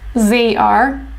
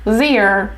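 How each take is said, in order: First: It is said as two full words. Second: It is said as one contracted syllable. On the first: "They are sounds like their" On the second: "sounds like their"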